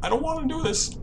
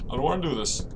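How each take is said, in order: First: Scared whimper. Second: Quiet scared repeat. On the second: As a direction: say it again, softer. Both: Real, not acted.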